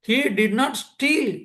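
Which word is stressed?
steal. The word steal carries the main stress. He did something else to the watch. "திருடலை, வேற ஏதோ பண்ணியிருக்கான்"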